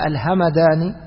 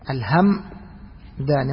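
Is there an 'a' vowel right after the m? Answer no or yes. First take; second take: yes; no. First: The m is followed by an 'a' vowel. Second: The m is said with no vowel after it. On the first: The speaker calls it wrong. "ما تقول الهمداني" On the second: The speaker calls it right. "بإسكان الميم"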